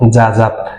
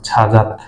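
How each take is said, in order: First: The word begins with a 'j' sound. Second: The word begins with a 'ch' sound. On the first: "জ আ যা" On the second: "তাহলে হবে ছ আ ছা"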